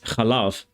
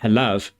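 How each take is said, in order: First: The word begins with a harsh ch sound. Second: The word begins with a soft h sound. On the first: This is the modern pronunciation. "but now it's chalav" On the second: This is the older pronunciation. "milk used to be halav"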